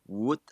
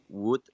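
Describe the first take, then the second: The two takes are said the same way.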